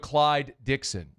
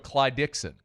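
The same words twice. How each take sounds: First: The final d of Clyde is released before a pause. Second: The final d of Clyde merges into Dixon. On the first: The speaker calls it wrong. "You wouldn't go Clyde Dixon. You wouldn't pause" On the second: The speaker calls it right. "We would just go Clyde Dixon"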